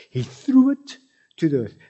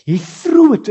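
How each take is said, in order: First: Said in the usual way. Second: Threw punched high and loud; preacher shouting threw to stress God's intent. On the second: Shown as a demonstration. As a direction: hit the word threw hard. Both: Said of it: "and he threw it to the earth".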